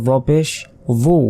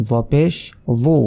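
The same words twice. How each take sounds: Both takes have the same delivery.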